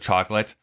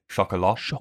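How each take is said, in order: First: The word is said English-style, with a final t. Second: The word is said French-style, without a final t. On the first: The speaker calls it wrong. "Instead of chocolate" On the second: The speaker calls it right. "I believe is how you say it"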